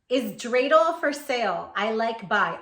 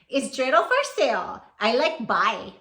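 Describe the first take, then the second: First: It is read in a plain, standard accent. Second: It is read in a Hawaiian pidgin accent.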